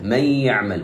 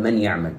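First: Sung, من يعمل read as may-yaʿmal, noon merged into ya; sung, merge the noon into ya with ghunna; merged with nasal hum. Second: من يعمل with a clear noon, not merged; noon pronounced clearly. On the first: Sung, teacher demonstrates the correct merge. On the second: Teacher gives the wrong unmerged reading. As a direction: read it fast with the noon intact. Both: Shown as a demonstration. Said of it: "ولم أقل من يعمل".

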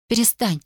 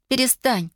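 First: Breathless cry, pitched higher; begging him to stop, out of breath; gasping plea. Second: Breathless cry, even higher; pleading again, pitch climbing further; gasping plea. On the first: (задыхаясь, высоко и умоляюще) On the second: (задыхаясь, ещё выше и отчаяннее) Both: A narrator's reading. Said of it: "задыхалась она".

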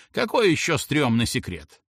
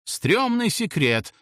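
First: Querying, affronted grandpa; understated indignation; mildly indignant. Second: High, drawn-out call without much volume; mild narrated outcry; grandpa's shouted guess. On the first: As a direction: question it with a touch of outrage. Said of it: "возмутился дедуля". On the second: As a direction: shout it out slowly, lightly. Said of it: "выкрикнул дедуля". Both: A narrator's reading.

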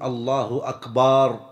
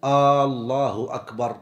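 First: أكبر with its ba stretched long, slowly; slow, stretched wrong أكبر; drawn-out ba. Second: الله with the opening hamza stretched long, slowly; slow, stretched wrong الله; drawn-out hamza. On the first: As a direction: stretch the ba in أكبر like a drum word. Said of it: "ألا يمد الباء في أكبر". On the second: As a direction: draw out the first vowel of الله like a question. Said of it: "ألا يمد الهمزة في لفظ الجلالة". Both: Shown as a demonstration.

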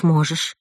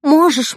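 First: Said in the usual way. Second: High, loud firm insistence; insisting. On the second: Acted. Mother urging her daughter to go marry, insistent. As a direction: press the point hard. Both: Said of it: "настаивала мама".

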